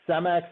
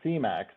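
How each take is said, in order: First: The first syllable sounds like 'say'. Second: The first syllable sounds like 'see'. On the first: The speaker calls it right. "that that is pronounced Cemex" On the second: The speaker calls it wrong. "not C-MEX"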